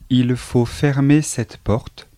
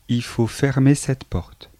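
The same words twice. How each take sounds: First: The first word is a full il with l. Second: The first word is a bare i without l. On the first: This is the standard form. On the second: This is the casual spoken form.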